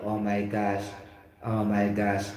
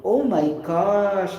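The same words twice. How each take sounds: First: "Oh my gosh" said lower and quieter, with no lift at all; flat interjection. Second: "Oh my gosh!" drawn out slowly, big stress on "oh" and falling at the end; expressive exclamation. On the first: Teacher contrasting a dull interjection with a lively one. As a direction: toss off "Oh my gosh" dully, like it means nothing. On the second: Teacher modelling the right tone for an interjection. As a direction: savour each word of "Oh my gosh!" with real feeling. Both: Shown as a demonstration. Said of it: "Take note my, my tone".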